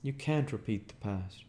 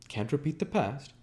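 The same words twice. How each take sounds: First: Said in the usual way. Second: Incredulous. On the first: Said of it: "I ventured". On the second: A narrator's reading. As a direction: throw the words back in disbelief. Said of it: "he cried incredulously".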